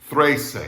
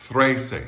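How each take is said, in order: No difference in how they are said.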